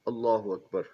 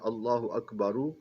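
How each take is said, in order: First: Akbar ends on the consonant 'r' with no vowel. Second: Akbar ends with an added short 'u' vowel.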